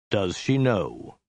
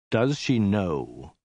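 First: Slow, flat menace; cold and slow, deadly calm; low dead voice. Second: Low hiss. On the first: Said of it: "in a low, dead voice". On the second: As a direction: menace it out slowly. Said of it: "he hissed". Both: A narrator's reading.

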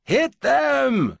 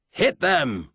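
First: High, loud drawn-out battle cry; bellow. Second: Mild bellowed battle order; commanding shout, held slightly in check. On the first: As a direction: bellow the order at full force, pitch way up. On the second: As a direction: bellow the command, voice falling sharply at the end. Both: A narrator's reading. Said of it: "he bellowed".

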